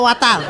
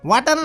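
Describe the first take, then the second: First: The middle consonant is a t against the teeth. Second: The middle consonant sounds like a soft d. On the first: The speaker calls it right. "এটা ওয়াটার। জিহ্বার আগে সামনের দুই দাঁতের সাথে লাগবে।" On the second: The speaker calls it wrong. "ওয়াটার না"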